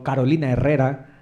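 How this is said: The name is said with a Spanish accent.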